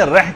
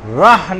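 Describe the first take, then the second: First: رح as reh, e and light h; wrong reh sound. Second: رح as rah, open a and throat ح; correct rah sound. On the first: Teacher showing the sound to avoid, everyday pronunciation. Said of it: "کی آواز نہیں نکالنی". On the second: Teacher showing the sound to make, careful articulation. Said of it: "کی آواز نکالنی ہے". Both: Shown as a demonstration.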